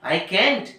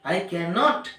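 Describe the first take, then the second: First: Can and not are merged into one syllable. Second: Can and not are said as two full words.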